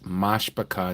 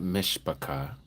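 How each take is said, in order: First: The first vowel is an 'a' sound. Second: The first vowel is an 'i' sound. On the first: The speaker calls it right. "That is Mashpachah, not Mishpachah. M A S H A C H A" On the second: The speaker calls it wrong. "not Mishpachah"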